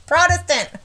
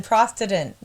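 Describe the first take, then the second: First: Protestant as "PROT-es-tant", higher; corrected pronunciation. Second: Protestant with a stray s, like "Prostetant"; fumbled pronunciation. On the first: Reader finally getting the word, Protestant said clearly as "PROT-es-tant". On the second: Reader stuck on a word, fumbled Protestant as "PROS-te-tant". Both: Real, not acted. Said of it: "I didn't even spell it right".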